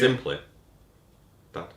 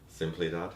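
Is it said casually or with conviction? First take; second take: with conviction; casually. First: It is said with emphasis and conviction. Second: It is said casually, without emphasis.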